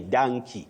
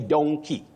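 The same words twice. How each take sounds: First: The first vowel is an 'a' sound. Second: The first vowel is an 'o' sound. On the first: The speaker calls it wrong. "It may sound unique or stylish for some people" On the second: The speaker calls it right. "that O simply takes its sound O"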